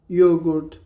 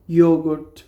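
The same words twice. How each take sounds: The two takes are said the same way.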